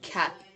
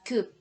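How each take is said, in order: First: The vowel is an open, unrounded 'uh' sound. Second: The vowel is a rounded 'oo' sound. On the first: The speaker calls it right. "you pronounce the vocal vowel like ah" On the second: The speaker calls it wrong. "You don't pronounce coop"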